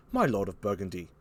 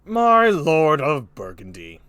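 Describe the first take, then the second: First: Put-on low, quiet British-accented address; France. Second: Slow, loud regal address; King Lear. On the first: France addressing Burgundy, quiet low British accent. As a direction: turn to him calmly in a British voice. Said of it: "Here's France". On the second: Acted. King Lear addressing Burgundy, loud slow kingly voice. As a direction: boom it out slowly like an old play's king. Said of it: "Here's King Lear again".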